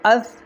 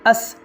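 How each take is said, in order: First: The consonant is a soft th sound. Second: The consonant is a hissing s sound. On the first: The speaker calls it right. "तो इसको किस तरह पढ़ेंगे?" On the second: The speaker calls it wrong. "बहुत से लोग ऐसे हैं जो सा को सीन पढ़ते हैं ... ये गलत है।"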